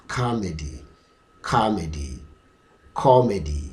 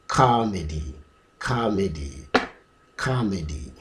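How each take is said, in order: Both takes have the same delivery.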